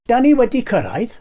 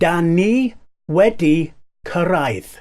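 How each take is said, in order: First: The phrase is said at a normal pace. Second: The phrase is said slowly and carefully.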